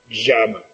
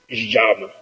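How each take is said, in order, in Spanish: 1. Empieza con un sonido tipo sh, con zumbido o siseo. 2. Empieza con un sonido tipo sh, con zumbido o siseo.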